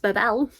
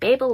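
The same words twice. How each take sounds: First: The word is said with a French pronunciation. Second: The word is said with an English pronunciation. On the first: "If you want the French pronunciation, it's" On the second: "is the English pronunciation"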